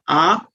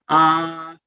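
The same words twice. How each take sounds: First: The vowel is held for two beats. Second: The vowel is held for three beats. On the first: "two t" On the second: "three time factor"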